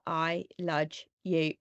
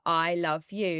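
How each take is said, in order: First: The word love ends with a j sound. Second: The word love ends with a v sound. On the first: A small child trying to copy it said it. "he was like I ludge you" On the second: The parents said it. "we were like I love you"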